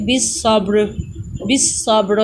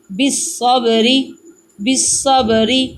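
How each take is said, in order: First: بس صبر stopped on the ر, ending dropped; pausal form. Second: Said in the usual way. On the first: Shown as a demonstration. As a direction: stop on the ر in بس صبر. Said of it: "ہم نے وقف کرنا ہے، رکنا ہے". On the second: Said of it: "اب ہم نے بس صبری پڑھا ہے".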